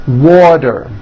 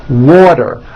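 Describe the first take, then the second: No difference in how they are said.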